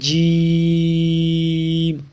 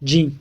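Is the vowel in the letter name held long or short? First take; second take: long; short. First: The vowel is drawn out for seconds. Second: The vowel is said short and clipped. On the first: The speaker calls it right. "ये दुरुस्त है" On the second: The speaker calls it wrong. "तो ये लफ्ज़ गलत है"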